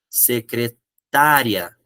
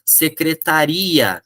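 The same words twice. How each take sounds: First: Secretária slowly, stressed on TÁ, se-cre-TÁ-ria; secretária, slow, stress on the open á. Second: Secretaria slowly, stressed on RI, se-cre-ta-RI-a; slow, stress on the end. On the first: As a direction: draw out secretária with the stress moved back. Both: Shown as a demonstration. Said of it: "eu precisei colocar o acento".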